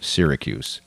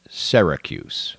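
First: The first syllable does not sound like 'Sarah'. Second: The first syllable sounds like 'Sarah'. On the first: This is how most of the country says it. "Everybody in America calls the city" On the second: This is how people in the city say it. "There, they call it Syracuse. Like Sarah"

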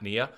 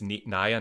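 First: The first vowel sounds like 'knee'. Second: The first vowel sounds like 'eye'. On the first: The speaker calls it wrong. "not Nia" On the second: The speaker calls it right. "her knees aren't pretty, her eyes are. It's Nia"

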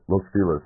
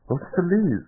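First: The name is said with an English-style pronunciation. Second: The name is said with a Spanish pronunciation. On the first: This is how locals say it. The speaker calls it wrong. "in L.A., they're called, like" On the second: This follows the name's original language. The speaker calls it right. "it's you know Spanish"

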